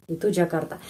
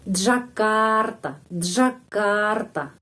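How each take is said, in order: First: Said in the usual way. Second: "Jakarta" drawn out very slowly, the stressed syllable clearly lengthened; stress demo. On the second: Shown as a demonstration. Teacher showing students where Jakarta's stress falls, slow and lengthened. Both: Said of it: "Tapi penekanannya di sana".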